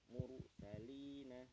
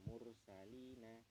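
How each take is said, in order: First: The r is pronounced heavy and full. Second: The r is pronounced light and flowing. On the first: The speaker calls it right. "ra-nya dibaca tebal" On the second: The speaker calls it wrong. "bukan mursalina"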